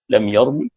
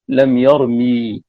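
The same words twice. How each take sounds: First: The final vowel is cut short. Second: The final vowel is drawn out long. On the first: "باختلاس الحركة" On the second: "بالإشباع بإشباع بالياء"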